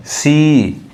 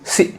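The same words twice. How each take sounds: First: "सी" with a long, held ee; slow demonstration of long "सी"; long vowel. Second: "सी" cut short with a brief i; short-vowel counterexample "सी"; too-short vowel. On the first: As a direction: draw out the ee of "सी". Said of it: "long sound". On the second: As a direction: say "सी" quickly, clipping the ee. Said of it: "नहीं". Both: Shown as a demonstration.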